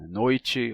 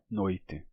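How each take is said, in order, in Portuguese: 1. O som do t é palatalizado, como um ch. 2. O som do t é simples, sem palatalização. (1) "em diferentes graus de palatalização" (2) "sem palatalização"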